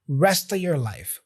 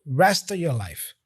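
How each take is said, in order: Both takes have the same delivery.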